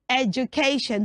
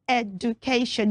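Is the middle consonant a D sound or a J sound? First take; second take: J sound; D sound. First: The middle consonant is a J sound. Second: The middle consonant is a plain D sound. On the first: The speaker calls it right. "So we say education" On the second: The speaker calls it wrong. "So you don't say education"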